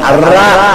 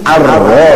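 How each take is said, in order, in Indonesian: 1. R-nya ringan, dengan vokal seperti a. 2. R-nya berat, dengan vokal seperti o. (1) "dibaca Ar-Ra karena huruf Latin" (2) "ini Ar-Ro"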